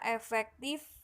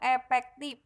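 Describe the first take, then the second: First: The middle consonant is an f sound. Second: The middle consonant is a p sound. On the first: "kita eh, baca biasanya efektif" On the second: "F-nya ini kadang dibaca eh, efektif, P ya, bukan F"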